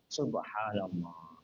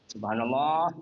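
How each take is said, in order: First: It is said as calm, devout praise. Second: It is said as a pointed, alerting reminder. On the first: It is meant as remembrance of God. The speaker calls it right. "itu zikir begitu tidak batal sholatnya. Subhanallah. Dari intonasinya sudah kelihatan" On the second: It is meant to tell someone they made a mistake. The speaker calls it wrong. "Tapi kalau niatnya mengingatkan"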